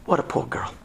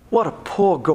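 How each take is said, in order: First: Whispered lament. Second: Said in the usual way. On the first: Real, not acted. Repeated lament, first take whispered.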